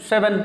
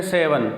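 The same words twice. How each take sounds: First: سیون with short first e; short, light vowels in سیون; correct seven. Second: سیون as "say-van"; long first vowel in سیون; common mispronunciation. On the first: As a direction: say سیون as "sevn". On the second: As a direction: stretch سیون to "sayvan". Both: Shown as a demonstration. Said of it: "اکثر ہم اس کو کہتے ہیں".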